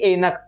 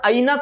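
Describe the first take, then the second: First: The first vowel is the closer 'e' sound. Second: The first vowel is the open 'ai' sound. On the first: The speaker calls it wrong. "ना कि एनक" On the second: The speaker calls it right. "ये ऐ है तो इसका उच्चारण ऐनक होगा"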